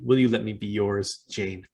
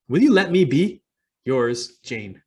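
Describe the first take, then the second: First: It runs on through 'yours', breaking before 'Jane'. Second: It breaks after 'be', and 'yours' starts anew. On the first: The writer asks to belong to the reader. "same words, very different meaning" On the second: The writer asks to be left alone. "small punctuation, big difference in message"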